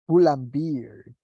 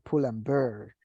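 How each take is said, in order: First: The last word has the vowel of 'beer'. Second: The last word has the vowel of 'bear'. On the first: The speaker calls it wrong. "people say pull and beer" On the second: The speaker calls it right. "cuando debería ser pull and bear"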